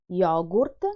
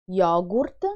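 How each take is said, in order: The two takes are said the same way.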